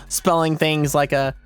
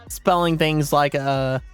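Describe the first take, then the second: The two takes are said the same way.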